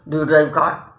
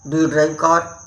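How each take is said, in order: Both takes have the same delivery.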